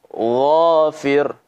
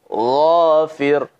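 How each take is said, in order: No difference in how they are said.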